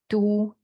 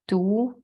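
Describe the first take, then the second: First: It is said in the first tone. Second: It is said in the second tone. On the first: It means city. "from the left is the first tone" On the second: It means poison. "second tone is poison"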